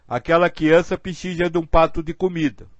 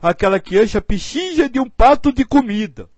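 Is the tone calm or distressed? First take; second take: calm; distressed. First: It is said in a calm, matter-of-fact tone. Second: It is said in a distressed, pained tone. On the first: The need is simply noted as a fact. "Uma coisa é você dizer assim" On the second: The speaker feels the other's suffering. "meu Deus, ai"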